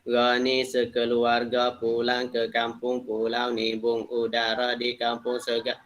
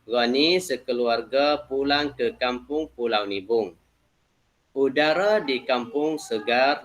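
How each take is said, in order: First: It is read quickly, running on without pauses. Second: It is read steadily, pausing between the sentences. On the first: The speaker calls it wrong. "Straight lah saya nak baca, lebih cepat" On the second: The speaker calls it right. "nak baca dengan cara peketik. Bukan cepat sangat"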